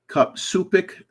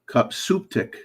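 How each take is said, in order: First: There is no t sound before the last syllable. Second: A t sound comes before the last syllable. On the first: The speaker calls it wrong. "No, I'm pronouncing it wrong" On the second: The speaker calls it right. "C U P S U P T I C"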